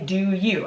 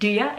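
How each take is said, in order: First: The word you is said in full. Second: The word you is reduced to ya. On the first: "I don't say do you" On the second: "I said do ya"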